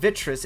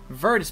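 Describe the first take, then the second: First: The name is said as Vitris, without the r. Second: The name is said as Virtus, with the r. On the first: The speaker calls it wrong. "I was saying it wrong. I was saying Vitris" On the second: The speaker calls it right. "It's Virtus Pro"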